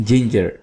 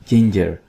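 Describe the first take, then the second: No difference in how they are said.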